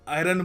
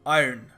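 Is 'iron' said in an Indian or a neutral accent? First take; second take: Indian; Neutral. First: The word is said in an Indian accent. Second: The word is said in a neutral accent. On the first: The speaker calls it wrong. "कई लोग आयरन बोलते हैं, ठीक है, India में चलता है" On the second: The speaker calls it right. "थोड़ा बहुत एक इंटरनेशनल एक्सेंट भी हो, न्यूट्रल एक्सेंट, तो ट्राई किया करो आयरन"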